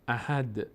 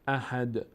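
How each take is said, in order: The two takes are said the same way.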